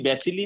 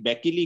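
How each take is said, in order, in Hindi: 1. बीच का व्यंजन s की आवाज़ है। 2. बीच का व्यंजन k की आवाज़ है। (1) "ये बैसिली नहीं कह रहा" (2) "ये बैकिली कह रहा है, असल प्रोनाउंसिएशन क्या है, बैकिली है"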